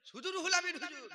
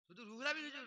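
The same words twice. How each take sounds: First: শুধু রুহুল আমিন হুজুর said higher and louder, Amin hit hard; loud insistence on the name; emphatic. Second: Said in the usual way. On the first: Real, not acted.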